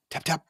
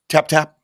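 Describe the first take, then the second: First: Soft, light tapping words; real soft. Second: Said in the usual way. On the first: Shown as a demonstration. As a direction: say it softly, barely there. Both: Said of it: "real soft".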